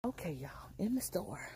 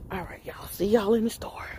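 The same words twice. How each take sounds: First: Hushed whisper on entering the store. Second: Said in the usual way. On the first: Real, not acted. Vlogger whispers to viewers as she steps into the store. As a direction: whisper it like you're sneaking in.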